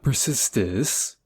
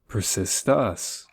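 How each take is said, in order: First: The last syllable has an 'ih' vowel. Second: The last syllable has an 'uh' vowel. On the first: The speaker calls it wrong. "No, not persistis" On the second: The speaker calls it right. "Yes, you have to say it like that"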